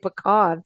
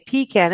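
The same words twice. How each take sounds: First: It does not sound like 'pee' plus 'can'. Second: It sounds like 'pee' followed by 'can'. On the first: It sounds regal. The speaker calls it right. "feel very regal about it" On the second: It sounds like peeing in a can. The speaker calls it wrong. "it sounds like you're peeing in a can"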